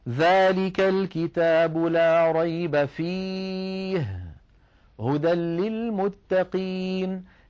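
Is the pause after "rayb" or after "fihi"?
after fihi. There is a pause after the word fihi. There is no doubt in the book. "لا ريب فيه، فصارت كلمة فيه متعلقة بجملة لا ريب"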